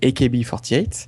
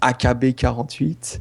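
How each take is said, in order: First: The name is said with English pronunciation. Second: The name is said with French pronunciation. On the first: The speaker calls it right. "vachement plus classe en anglais" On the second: The speaker calls it wrong. "trollers qui prononcent"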